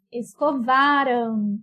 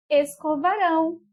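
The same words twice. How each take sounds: First: "escovaram" slowly, leaning long on VA; stress on penultimate syllable. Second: "escovarão" landing firmly on RÃO; stress on last syllable. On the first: Teacher modelling the past tense, "escovaram" with VA stressed. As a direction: draw out esco-VA-ram in "escovaram". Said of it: "a sílaba mais forte é a penúltima". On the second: Teacher modelling the future tense, "escovarão" with RÃO stressed. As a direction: hit the end of esco-va-RÃO in "escovarão". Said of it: "ela é oxítona". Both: Shown as a demonstration.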